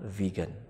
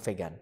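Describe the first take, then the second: First: It is said with an English pronunciation. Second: It is said with an Indonesian pronunciation. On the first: This is the form used at international meetings. "yang kita lafalkan di dalam pertemuan-pertemuan internasional" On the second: This is the easiest form in the local language. "dalam bahasa Indonesia paling gampang"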